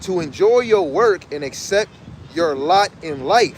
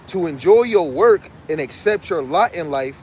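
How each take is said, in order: First: It is read at a slower pace. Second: It is read at a normal, faster pace.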